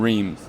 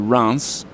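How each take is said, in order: First: The name does not sound like France without F. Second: The name sounds like France without the F. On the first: The speaker calls it wrong. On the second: The speaker calls it right.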